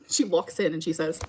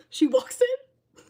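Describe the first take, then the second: First: Said in the usual way. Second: "She walks in." drawn out slowly and pitched far higher for suspense; dramatic retelling. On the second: Retold or imitated. Telling chat about mom's odd visit, slow high dramatic build. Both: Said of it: "I feel like I'm in the Twilight Zone".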